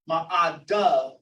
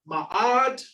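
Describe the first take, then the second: First: The word ends with an extra final 'a' syllable. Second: The word ends without a final vowel syllable.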